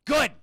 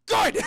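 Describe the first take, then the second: First: Emphatic. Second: High, loud burst; gleeful shout. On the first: Curt verdict, then repeated as shout. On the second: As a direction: shout it out far above your usual pitch. Repeats the verdict as a shout. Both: Acted.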